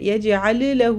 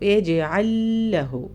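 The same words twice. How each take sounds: First: The two L sounds are said separately. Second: The two L sounds merge into one. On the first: The speaker calls it wrong. "രണ്ട് യജ്അൽ ലഹു എന്ന് പറയൂല" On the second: The speaker calls it right. "ഒരു ലാമ് പോലെ നമ്മൾ ഓതാം"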